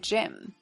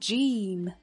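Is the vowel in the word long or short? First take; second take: short; long. First: The vowel is short and clipped. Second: The vowel is long and drawn out. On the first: The speaker calls it right. "短元音A 短促有力" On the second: The speaker calls it wrong. "如果读成长元音E 就变成Gym 不够好听"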